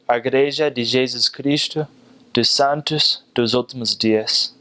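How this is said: It is said in a Mozambican Portuguese accent. "in Mozambique, they'd say"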